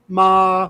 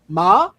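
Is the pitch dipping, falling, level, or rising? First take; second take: level; rising. First: The pitch stays level and constant. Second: The pitch rises from low to high. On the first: "flat tone" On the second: "ascending tone"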